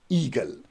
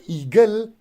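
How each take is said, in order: First: The stress is on the first syllable. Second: The stress is on the second syllable. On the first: The speaker calls it right. "it is eagle" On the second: The speaker calls it wrong. "So it is not eagle"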